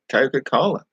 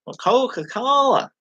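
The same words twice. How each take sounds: First: Put-on Coca-Cola in his own Australian accent, a little higher. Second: Coca-Cola stretched slow and much higher, American style; exaggerated American accent. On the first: Ordering a drink in America, Aussie accent. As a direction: says Coca-Cola the Aussie way, rising at the end. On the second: American clerk correcting him, slow mock American. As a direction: overpronounce Coca-Cola like a Yank. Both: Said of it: "they speak so slow and exaggerated".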